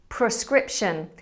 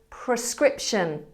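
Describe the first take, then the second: No difference in how they are said.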